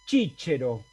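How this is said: It is said with an Italian pronunciation. "italiano lo pronunciaba así"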